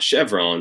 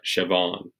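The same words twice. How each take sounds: First: It sounds like the gas station brand name. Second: It does not sound like the brand name. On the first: The speaker calls it wrong. "not Chevron. It's not a gas station" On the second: The speaker calls it right. "but Chevron"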